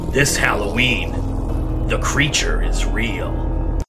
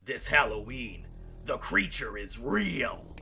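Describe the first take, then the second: First: It is read with less energy. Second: It is read with more energy.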